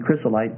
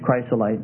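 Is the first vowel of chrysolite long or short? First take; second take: short; long. First: The first i is a short vowel. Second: The first i is a long vowel. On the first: "Short I sound" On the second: "Maybe it's chrysolite"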